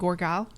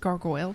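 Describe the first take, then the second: First: It is said like 'gorgile', with an 'or' sound. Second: It is said like 'gargoyle', with an 'ar' sound. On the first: The speaker calls it wrong. "he could never say it right. And it he always said Gorgile" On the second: The speaker calls it right. "but it's mm. not. It's gargoyle"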